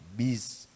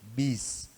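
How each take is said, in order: The two takes are said the same way.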